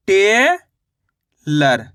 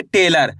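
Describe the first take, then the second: First: टेलर split as टे, long pause, लर; very slow टेलर with a drawn-out टे; sounded-out word. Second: Said in the usual way. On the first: Shown as a demonstration. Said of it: "इस तरीके से शब्द का उच्चारण करोगे". (टेलर को टे... लर तोड़कर बोलना) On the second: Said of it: "शब्द का उच्चारण सही से सुनना है".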